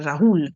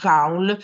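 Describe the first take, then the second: First: The name is pronounced the French way. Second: The name is pronounced in a non-French way. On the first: This is the French protagonist's name. "il protagonista che è francese si dice, si dovrebbe pronunciare Raoul" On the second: This is the author's own name. "il nome dell'autore si pronuncia Raoul"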